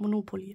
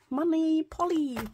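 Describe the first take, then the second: First: It is said as the single word Monopoly. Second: It is said like the two words money polly. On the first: The speaker calls it right. "Das heißt ja eigentlich auch Monopoly" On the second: The speaker calls it wrong. "Nicht so blöd, wie ich es gerade gesagt habe"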